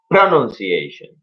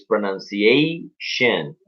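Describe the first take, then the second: First: "pronunciation" with the early syllable NUN hit, the rest quicker; wrong stress. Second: "pronunciation" slowly, with a long stressed A before the last syllable; correct stress. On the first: Teacher shows the mistake, "pronunciation" stressed too early. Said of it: "no pronunciation". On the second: Teacher corrects the word accent, "pronunciation" slowly stressed on A. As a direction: stretch the A in "pronunciation", then fall. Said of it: "Pay attention to the accent of the words". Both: Shown as a demonstration.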